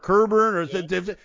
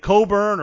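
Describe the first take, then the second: First: The first syllable sounds like ker. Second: The first syllable sounds like co, no k. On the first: "or Kerburn" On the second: "They say it differently on TV. They say Coburn"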